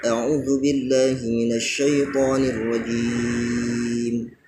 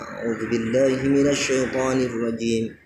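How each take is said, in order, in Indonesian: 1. Vokal pada kata terakhir dibaca panjang. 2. Vokal pada kata terakhir dibaca sebentar. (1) "tapi ... Seperti itu" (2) "Tidak cukup hanya membaca"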